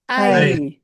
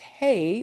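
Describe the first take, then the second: First: The word starts with a vowel sound. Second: The word starts with an h sound. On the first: The speaker calls it right. "We'll pronounce that as" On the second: The speaker calls it wrong. "we won't say it as hey"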